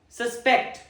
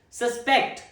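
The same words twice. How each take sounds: The two takes are said the same way.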